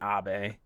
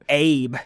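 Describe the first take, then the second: First: It does not sound like the English name Abe. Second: It sounds like the English name Abe. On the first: This is how the name really goes. The speaker calls it right. "it's got to be Abe" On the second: This is how the spelling looks. The speaker calls it wrong. "it looks like it would be Abe"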